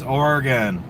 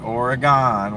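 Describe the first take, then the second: First: The last syllable is reduced, not like 'gone'. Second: The last syllable is full, sounding like 'gone'. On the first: The speaker calls it right. "my cousin who's from Oregon said it's Oregon" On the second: The speaker calls it wrong. "It's not Oregon. We're still here. We're not gone"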